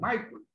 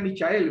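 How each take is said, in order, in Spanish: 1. El nombre se dice con sonidos ingleses. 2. El nombre se dice con sonidos españoles. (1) "en inglés se lee Michael" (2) "si uno quiere castellanizar, diría Michael"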